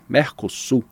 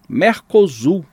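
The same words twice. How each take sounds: First: The middle consonant is a voiceless s sound. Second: The middle consonant is a voiced z sound. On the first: This is the conventional Spanish-style reading. "convencionou-se ler com a pronúncia hispânica" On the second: This is how it would sound if read as written. "É a pronúncia que deveria ser, se a gente lesse a palavra como é escrita"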